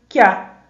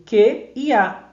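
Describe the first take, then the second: First: "que a" blended into one syllable, KYA; sound fusion. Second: "que e a" slowly, each word its own syllable; vowels apart. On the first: Teacher giving the result of the fusion, "que a" as KYA. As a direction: glide "que" straight into "a" as KYA. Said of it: "Fica que a". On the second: Teacher taking the fusion apart, "que" and "a" said separately. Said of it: "como houvesse uma fusão sonora". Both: Shown as a demonstration.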